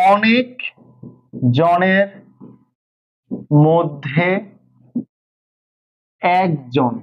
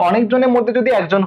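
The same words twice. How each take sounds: First: Slow dictation with long pauses; word by word. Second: Said in the usual way. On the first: Shown as a demonstration. Teacher explaining the phrase's meaning to students, word by word. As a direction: space each word out for the class.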